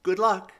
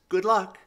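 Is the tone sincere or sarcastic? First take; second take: sincere; sincere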